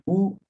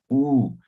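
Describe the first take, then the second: First: Said in the usual way. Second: U held long, the vowel stretched; lengthened vowel. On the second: Shown as a demonstration. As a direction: draw out the U to double length. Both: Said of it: "En vez de decir U".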